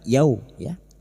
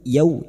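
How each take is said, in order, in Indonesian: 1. Kata ini berakhir dengan bunyi ya tambahan. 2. Kata ini berakhir bersih pada bunyi u yang lembut.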